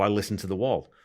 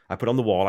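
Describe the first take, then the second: First: Said in the usual way. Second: "The Wall" with "The" punched louder; falling, emphatic "The Wall"; stress on THE. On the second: Shown as a demonstration. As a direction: hit "The" in "I put on The Wall". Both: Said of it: "that's the way you're supposed to listen".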